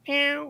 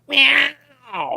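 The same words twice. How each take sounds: First: The meow is a bit louder. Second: The meow is loud like a roar.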